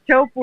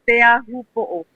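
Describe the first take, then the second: First: Several of the word's sounds are dropped. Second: Every sound of the word is pronounced. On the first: The speaker calls it wrong. "everybody pronounces so like like so badly" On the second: The speaker calls it right. "how you pronounce it well"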